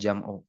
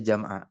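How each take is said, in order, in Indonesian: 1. Kata itu diakhiri dengan vokal 'u'. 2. Kata itu diakhiri dengan vokal 'a'. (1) "bukan jam'u" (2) "di fathah dibaca jam'a"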